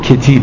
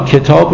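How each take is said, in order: First: The last syllable has a long i vowel. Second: The last syllable has a long a vowel. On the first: "مولانا کتاب رو کتیب تلفظ میکنه" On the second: "اماله پس یعنی تبدیل آ به ای"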